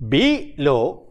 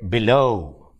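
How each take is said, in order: First: The stress is on the first syllable. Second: The stress is on the second syllable. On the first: The speaker calls it wrong. "we don't say be low" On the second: The speaker calls it right. "we say below. The stress is on low"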